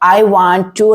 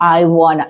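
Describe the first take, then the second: First: Each word is said fully and separately. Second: The words are blended into one short word. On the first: The speaker calls it wrong. "എന്നല്ല" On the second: The speaker calls it right.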